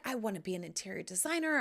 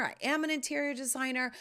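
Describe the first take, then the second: First: Said in the usual way. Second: Am pushed up and held; stress on am. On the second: Shown as a demonstration. Correcting herself to viewers, stress on am. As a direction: land hard on the word am.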